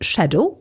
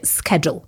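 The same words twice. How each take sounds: First: It is said with a British pronunciation. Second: It is said with an American pronunciation. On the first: "W Anglii powiemy schedule" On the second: "w Nowym Jorku to już będzie schedule. Schedule przez K"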